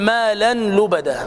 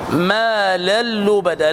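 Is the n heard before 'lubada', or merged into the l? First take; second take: n heard; merged. First: The n is pronounced before the l. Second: The n merges fully into a doubled l. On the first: The speaker calls it wrong. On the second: The speaker calls it right.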